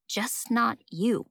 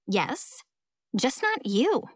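First: Slow, drawn-out "just not you"; remembered jab, repeated slowly; brooding echo. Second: Pointed "just not you", lifting at the end; catty put-down, rising on "you"; pointed jab. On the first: Narrator mulls over rival's words. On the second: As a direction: deliver "just not you" as a quick dig. Rival's pointed jab to Amelia. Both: Acted.

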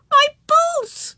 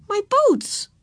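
First: Very high, loud wail; wailing child. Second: Put-on high, small child's voice; upset little girl. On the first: Girl lifted out of her new boots, wailing. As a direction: cry out in dismay like a little girl. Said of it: "she wailed". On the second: Girl fretting instead of saying thanks, plaintive. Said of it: "said Ramona". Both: A narrator's reading.

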